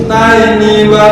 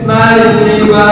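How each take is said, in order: No difference in how they are said.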